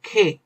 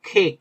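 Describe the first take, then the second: No difference in how they are said.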